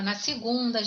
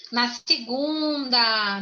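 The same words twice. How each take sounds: First: Said in the usual way. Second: "Na segunda" at half speed, stretching the GUN; drawn-out emphasis. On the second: Real, not acted. Teacher confirming the answer to the class, "segunda" slowly drawn out. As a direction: draw out "segunda" to drive it home.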